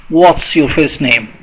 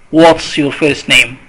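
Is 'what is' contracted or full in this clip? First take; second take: contracted; contracted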